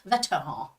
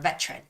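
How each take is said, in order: First: It is said with French sounds, no English R. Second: It is said with English sounds and R. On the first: "This is how you say it in French. ... because they don't make that R sound" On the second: "is the English way of saying it"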